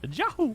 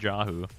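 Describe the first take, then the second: First: It is said in a put-on Mario voice. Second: It is said in a plain, ordinary voice.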